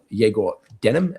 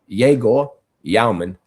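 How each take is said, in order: First: The surname is said in a casual anglicized way. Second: The surname is said in a careful precise way. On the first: This is the speaker's habitual version of the name. The speaker calls it wrong. "as I like to say" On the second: This is the name as it is properly said. The speaker calls it right. "to be precise"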